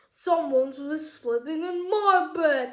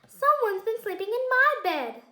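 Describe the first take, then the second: First: It is said in a big booming voice. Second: It is said in a medium-sized voice.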